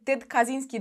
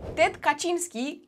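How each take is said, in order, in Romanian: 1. Numele de familie se pronunță într-un fel non-polonez. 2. Numele de familie se pronunță în felul polonez. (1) "am găsit și pronunțarea de" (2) "asta este pronunțarea în poloneză"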